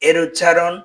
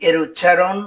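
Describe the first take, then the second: The two takes are said the same way.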